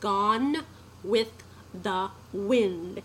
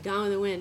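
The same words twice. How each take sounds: First: Each word is pronounced clearly and distinctly. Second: The words run together and are slurred. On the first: The speaker calls it right. "And I should say" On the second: The speaker calls it wrong. "I was listening to something we had recorded earlier, and I was like"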